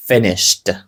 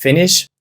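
First: Finished said lower with a falling tune, the ed ending clear; finished said as the past form after Finish. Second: The bare verb Finish before its past form; base form. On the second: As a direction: Finish said plainly with a rising tune, no ending. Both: Shown as a demonstration. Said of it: "потрібно доставити E D".

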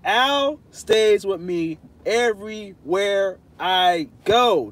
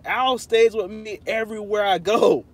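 First: Slow, drawn-out and emphatic. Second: Said in the usual way. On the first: Pretend. To chat doubting the friendship, slow emphatic insistence. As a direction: spell it out slowly for them. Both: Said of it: "I love to talk like this".

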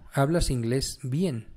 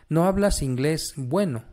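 First: Slow, careful correction. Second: Said in the usual way. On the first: Shown as a demonstration. Teacher correcting a student, slow and deliberate. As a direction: say "hablas inglés bien" slowly and deliberately. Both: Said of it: "el uso de los dos".

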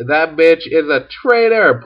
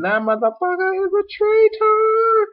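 First: Higher-pitched, lightly acted denunciation; mildly hammed-up indignation; mock accusation. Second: Very high, put-on witch screech; shrieking witch accusation. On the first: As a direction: accuse with a touch of comic outrage. Acted witch accuses Edmund. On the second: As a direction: squeal the accusation in hammed-up outrage. Witch repeats accusation, escalated.

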